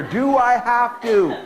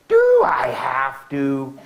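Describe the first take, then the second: First: Whiny snotty line, higher and louder, dragged out slowly. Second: Slow, whiny and snotty, dragged out and louder. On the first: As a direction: play the bratty kid asking it again. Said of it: "One finger". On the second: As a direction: whine it like a bratty kid who won't. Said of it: "say in a really snotty voice". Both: Shown as a demonstration.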